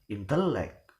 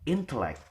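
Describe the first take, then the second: First: The stress is on the middle syllable. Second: The stress is on the first syllable. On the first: The speaker calls it wrong. "give the stress in in the penultimate" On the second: The speaker calls it right. "the stress is given in the first syllable"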